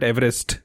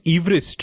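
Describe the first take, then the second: First: Said in the usual way. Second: "Everest" said EEV-rist, long ee first; original pronunciation. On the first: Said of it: "we all call it Everest". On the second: Shown as a demonstration. Quizzer correcting how it is pronounced, "Everest" as EEV-rist. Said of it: "supposed to be pronounced Everest".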